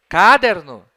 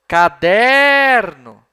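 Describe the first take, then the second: First: The stress is not on the middle syllable. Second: The stress is on the middle syllable. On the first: The speaker calls it wrong. "Não" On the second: The speaker calls it right. "Repararam que a sílaba der é a mais forte?"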